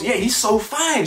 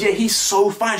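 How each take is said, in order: First: High, slow, dreamy gush; mock swooning girl. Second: High, insistent gush; mock girl doubling down. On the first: Mocking her gushing over another man, dreamy and slow. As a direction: sigh it out like she's smitten. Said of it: "And she goes". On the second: Mocking her doubling down on her crush, high gush. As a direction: say it again, no shame. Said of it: "She doubles down on it".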